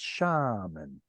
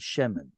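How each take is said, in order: First: The first vowel sounds like a. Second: The first vowel sounds like e. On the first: It marks the end of a logical segment. "but here it's shaman. It's pausal" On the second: The word is in the middle of a phrase. "which is the normal form"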